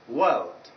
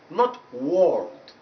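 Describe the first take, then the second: First: The vowel is a long central er sound. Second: The vowel is a rounded o sound. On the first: The speaker calls it right. "it's a. That's why it is world, world, a bit longer" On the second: The speaker calls it wrong. "you are replacing this vowel sound with vowel number seven, which is o"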